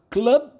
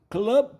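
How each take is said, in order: The two takes are said the same way.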